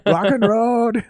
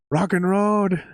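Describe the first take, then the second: First: Higher and louder, "Rock and Road" with R for L; hammed-up accented rock shout of "Rock and Road"; mock accented yell. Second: Imitating a Japanese singer's "Road", pitched higher; a mild mock yell of "Rock and Road"; mock accented yell. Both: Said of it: "used to yell".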